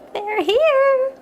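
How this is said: It is said in a panicked, hurried voice.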